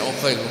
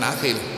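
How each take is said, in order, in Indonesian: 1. Nama itu diawali dengan bunyi 'u'. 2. Nama itu diawali dengan bunyi 'a'. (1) "manggil saya Uqail" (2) "bukan Akhil"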